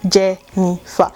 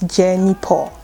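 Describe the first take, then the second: First: The name is said with an F sound. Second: The name is said with a P sound.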